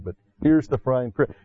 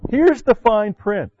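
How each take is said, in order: First: Said in the usual way. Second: Here's the fine print, pitched high and slow; emphatic announcement. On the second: Real, not acted. Preacher warning his flock, high and slow. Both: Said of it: "You may not have paid attention".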